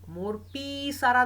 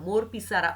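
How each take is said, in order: First: The first syllable of pisara is drawn out. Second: The first syllable of pisara is said lightly. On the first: The speaker calls it wrong. "नव्हतं सांगितलं" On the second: The speaker calls it right. "अलगद उच्चारण होतं"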